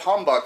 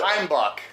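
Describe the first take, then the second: First: The first vowel sounds like 'uh'. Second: The first vowel sounds like 'eye'. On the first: The speaker calls it wrong. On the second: The speaker calls it right.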